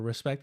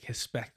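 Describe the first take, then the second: First: The first sound is an R. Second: The first sound is an H. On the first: "instead of respect" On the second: "they pronounce it like an H"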